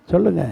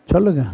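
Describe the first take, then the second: No difference in how they are said.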